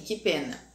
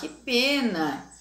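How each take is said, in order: First: It is said flatly, without feeling. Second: It is said in a sad, sorrowful tone. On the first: The speaker calls it wrong. "Aí eu não preciso ler assim" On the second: The speaker calls it right. "quando eu estou triste"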